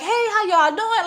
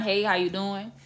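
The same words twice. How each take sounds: First: High, bubbly hello to everyone; extra-friendly party hello; overly friendly greeting. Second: Softer, low-key hello; just polite, nothing extra; calm, measured hello; toned-down kind greeting. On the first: Retold or imitated. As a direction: greet strangers like old friends. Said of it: "I'm the type of person like". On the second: Shown as a demonstration. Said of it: "just be kind".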